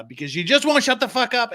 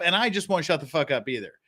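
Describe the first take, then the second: First: WONT pushed up high, a mock exasperated jab; teasing fake exasperation, "won't" hit hard; mock exasperated outburst. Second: Said in the usual way. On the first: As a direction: rise high and lean into "won't" like a fed-up jab at the chat. Teasing rant at the chat.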